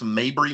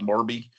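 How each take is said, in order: First: The R sound comes after the B sound. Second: The R sound comes before the B sound. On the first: The speaker calls it right. "That's Mabry Middle School" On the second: The speaker calls it wrong. "not Marby"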